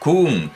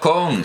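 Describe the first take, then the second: First: The vowel is a close u sound. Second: The vowel is an open o sound. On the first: The speaker calls it right. "sino kun" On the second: The speaker calls it wrong. "no con"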